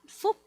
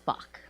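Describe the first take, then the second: First: The name is said with Vietnamese pronunciation. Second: The name is said with English pronunciation. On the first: "in Vietnamese you pronounce it" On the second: "In English, it could be pronounced as"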